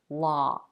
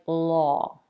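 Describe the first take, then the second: First: The vowel is an open unrounded ah sound. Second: The vowel is said with slightly rounded lips. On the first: "the vowel sounds more like ah as in father" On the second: "people round their lips a little when they pronounce the vowel"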